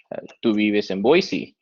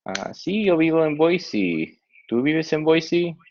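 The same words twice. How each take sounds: First: Said in the usual way. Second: Higher voice for the other student in the dialogue; answer, then ask back ¿Tú vives en Boise? in a higher voice; second dialogue partner. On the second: Acted. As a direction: read the partner's lines higher.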